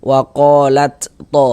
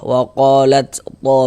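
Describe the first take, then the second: No difference in how they are said.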